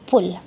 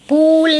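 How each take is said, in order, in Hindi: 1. स्वर छोटा और झटपट है। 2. स्वर खिंचा हुआ लंबा है। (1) "तो हम बोलेंगे पुल।" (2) "पूल नहीं बोलेंगे, पूल हो जाएगा तो बड़ा ऊ हो जाएगा"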